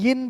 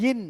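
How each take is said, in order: The two takes are said the same way.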